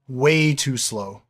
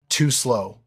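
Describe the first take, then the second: First: "Way too slow" dragged out with a hit on "Way"; slow, drawn-out emphasis. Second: Said in the usual way. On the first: A narrator's reading. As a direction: stretch "Way" and slow the whole phrase to mock them. Narrator mocking German reaction.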